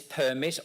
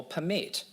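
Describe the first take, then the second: First: Permit as a noun, PER-mit; stress on first syllable. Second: Permit as a verb, per-MIT; stress on second syllable. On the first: Speaker asks teachers which reading, permit stressed up front. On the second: Speaker offers teachers the other reading, permit stressed at the end. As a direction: punch the last syllable of permit. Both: Shown as a demonstration. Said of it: "Is this permit or permit".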